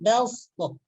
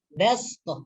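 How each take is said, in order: First: The s is a heavy, emphatic s sound. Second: The s is a plain, light s sound. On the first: The speaker calls it wrong. "bukan belstoh" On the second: The speaker calls it right. "dibaca dengan sin yang mati"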